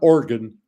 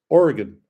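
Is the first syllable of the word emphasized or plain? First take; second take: plain; emphasized. First: The first syllable O is not emphasized. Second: The first syllable O is strongly emphasized. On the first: The speaker calls it wrong. "not Oregon" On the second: The speaker calls it right. "the big O"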